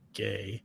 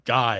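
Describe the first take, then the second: First: The vowel sounds like the word 'gay'. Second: The vowel sounds like the word 'guy'. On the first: The speaker calls it wrong. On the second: The speaker calls it right. "it would be guy"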